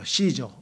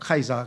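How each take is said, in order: First: The name begins with an S sound. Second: The name begins with a K sound. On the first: This is the English pronunciation. "영어로는 시저라 그래요" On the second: This is the Latin pronunciation. "라틴어로 하게 되면 이게 카이사가 돼요"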